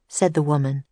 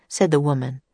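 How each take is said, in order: Both takes have the same delivery.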